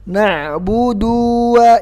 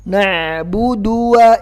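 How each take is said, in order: First: The vowel after the d is drawn out. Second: The vowel after the d is short. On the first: The speaker calls it wrong. "jangan dipanjangkan" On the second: The speaker calls it right. "dalnya nggak ada matnya"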